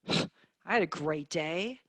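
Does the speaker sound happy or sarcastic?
sarcastic. It sounds sarcastic and unhappy. The day was actually bad. "same words, completely different meaning, ... oh, I'm sorry, what happened?"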